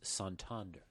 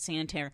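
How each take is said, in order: First: The name is said with a native-style accent. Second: The name is said with an English-style pronunciation.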